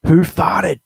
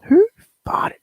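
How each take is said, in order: First: Loud, higher showman announce of the title; segment title announcement. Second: Breathy secret whisper of the title. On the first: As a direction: sell the segment name like a TV host. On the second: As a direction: murmur it like a naughty secret. Repeating the segment title. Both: Acted.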